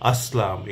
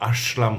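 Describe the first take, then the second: First: The middle consonant is a plain s sound. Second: The middle consonant is an sh sound. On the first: The speaker calls it right. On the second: The speaker calls it wrong.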